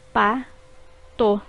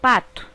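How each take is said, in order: First: Pa-to said as two separate beats; syllables split apart. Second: Said in the usual way. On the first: Shown as a demonstration. Teacher dividing pa-to for pupils, syllable by syllable. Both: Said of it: "formadas por duas sílabas".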